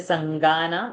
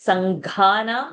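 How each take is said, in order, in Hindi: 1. gh ध्वनि अल्पप्राण है। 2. gh ध्वनि महाप्राण है। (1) "many people will miss the Mahaprana, will say Sangana" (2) "this Sanghana"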